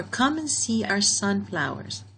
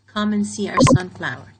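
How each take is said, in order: First: Said in the usual way. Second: Louder, firm command reading. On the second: Shown as a demonstration. Teacher reads the sentence out as a firm command. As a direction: say it like a command to the class. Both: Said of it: "so this is a command".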